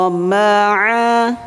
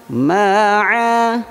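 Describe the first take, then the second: Both takes have the same delivery.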